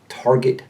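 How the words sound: The R after the first vowel is pronounced. "The typical American speaker pronounces the R"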